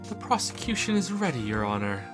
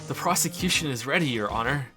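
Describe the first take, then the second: First: It is said in a fancy, posh voice. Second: It is said in an amused voice.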